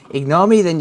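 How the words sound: It is read in a put-on Welsh accent.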